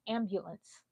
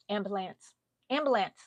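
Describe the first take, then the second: First: "ambulance" with a y glide, "am-byu-lance"; "ambulance" with "byoo" in the middle; proper pronunciation. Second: "ambulance" without the y sound, "am-buh-lance"; "ambulance" with a plain "buh" in the middle; childhood pronunciation. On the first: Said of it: "I heard that it was called". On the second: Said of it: "I would hear someone say the word properly". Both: Shown as a demonstration.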